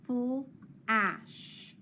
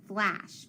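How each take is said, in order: First: "full ash" as two separate chunks, F-L, pause, short-A ASH; sounded out. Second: Said in the usual way. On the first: Shown as a demonstration. Teacher breaking a word down for pupils, sounded out. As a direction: split flash into "full ... ash", slowly. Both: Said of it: "break it apart".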